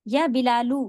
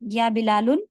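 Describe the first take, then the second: First: The name ends in a plain 'u' without n. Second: The name ends in 'un' with a final n. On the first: The speaker calls it right. "सही है" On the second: The speaker calls it wrong. "गलत है"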